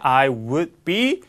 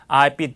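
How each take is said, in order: First: I and would are said as separate full words. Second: I and would are merged into one short syllable.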